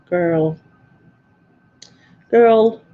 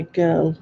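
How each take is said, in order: First: Put-on "girl" drawn out with a rolled R; "girl" with a Scottish trilled R. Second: Said in the usual way. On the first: Shown as a demonstration. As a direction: roll the R in "girl". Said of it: "laughs as I roll my R's". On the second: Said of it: "laughs as I roll my R's. So say girl".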